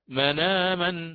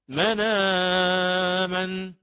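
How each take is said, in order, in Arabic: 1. يُمَدّ حرف المد مدًّا قصيرًا. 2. يُمَدّ حرف المد مدًّا متوسطًا. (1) "بالقصر" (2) "بالتوسط"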